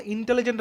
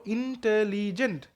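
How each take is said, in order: First: Said in the usual way. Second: "intelligent" slowly in four beats, ইন, টে, লি, gent; syllable by syllable. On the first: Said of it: "যখন intelligent আমি বলবো". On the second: Shown as a demonstration. Teacher counting four syllables in "intelligent", slowly, beat by beat. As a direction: stretch out each syllable of "intelligent". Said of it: "চারটা syllable আছে".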